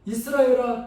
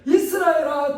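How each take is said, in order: First: Said in the usual way. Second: God calling out to Israel; emphatic call. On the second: Acted. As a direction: summon the nation. God's call repeated.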